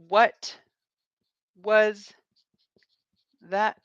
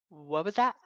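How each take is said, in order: First: Each word is said separately and fully. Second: The words are reduced and run together. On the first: "what we're saying is" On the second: "But it sounds like"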